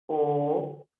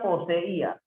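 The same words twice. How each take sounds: First: "Poseí" split po-se-í with long gaps; syllable separation. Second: Said in the usual way. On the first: Shown as a demonstration. Teacher showing the separación, "Poseí" in separate syllables. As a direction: hold each syllable of "Poseí" apart. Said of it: "Sería así". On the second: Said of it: "Cómo sería poseía".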